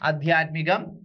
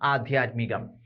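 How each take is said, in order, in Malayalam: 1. ആദ്യ സ്വരാക്ഷരം ഹ്രസ്വമാണ്. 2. ആദ്യ സ്വരാക്ഷരം ദീർഘമാണ്. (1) "തെറ്റാണ് വരുന്നത്" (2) "ആക്കി ദീർഘം വേണം"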